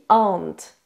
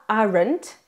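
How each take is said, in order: First: The vowel dominates and the R is reduced. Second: The R sound is pronounced strongly. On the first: The speaker calls it right. "le premier son qui va dominer et le R finalement est un peu réduit" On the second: The speaker calls it wrong. "il ne se dit pas aren't"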